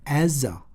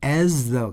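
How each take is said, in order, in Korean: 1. 두 번째 단어는 약하고 줄어서 발음돼요. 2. 두 번째 단어는 완전하고 또렷하게 발음돼요. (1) "굉장히 약하게 발음하는데" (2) "as the라고 정확하게 발음하지 않아요"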